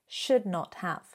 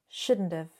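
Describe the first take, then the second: First: It is said as three separate full words. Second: It is squeezed into one shortened contracted form.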